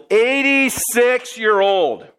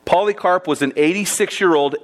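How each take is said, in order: First: Put-on eighty-six-year-old drawn out slowly and pitched higher; emphatic repeat. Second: Said in the usual way. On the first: Shown as a demonstration. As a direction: lean hard on eighty-six-year-old, slow and high.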